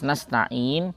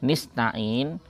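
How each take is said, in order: First: The first syllable has the vowel a. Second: The first syllable has the vowel i. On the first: "lafaz nasta'in" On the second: "huruf nun pertamanya dibaca kasroh menjadi nista'in"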